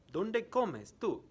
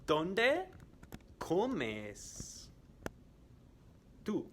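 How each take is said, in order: First: "¿Dónde comes tú?" said high and joined up, "comes" stressed; high, clear teacher question; quiz question in one go. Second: Slow and split up for learners; slow quiz question. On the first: Teacher repeating the question to students at normal flow. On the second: Teacher quizzing students, slow and split up. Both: Shown as a demonstration. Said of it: "I am going to ask some questions".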